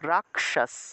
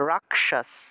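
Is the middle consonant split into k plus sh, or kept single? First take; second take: k plus sh; k plus sh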